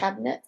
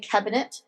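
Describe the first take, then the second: First: The word is said in an American accent. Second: The word is said in a British accent. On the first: "not cabinet" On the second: "which they always say cabinet"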